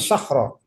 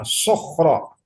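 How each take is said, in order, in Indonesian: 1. Suku kata pertama punya vokal terbuka yang ringan. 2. Suku kata pertama punya vokal bulat yang berat. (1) "bukan sakhro" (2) "Suaranya sokhro"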